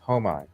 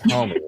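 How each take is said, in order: First: The word ends with an 'eye' sound. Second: The word ends with an 'ee' sound. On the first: The speaker calls it right. "it's Home Eye" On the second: The speaker calls it wrong. "but it's not homie"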